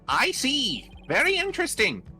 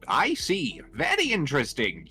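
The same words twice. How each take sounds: First: The voice is a put-on Skeletor-like voice. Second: The voice is the character's usual voice. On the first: The speaker calls it wrong. "he's turning into Skeletor now" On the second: The speaker calls it right. "try and get his voice back down to what it was"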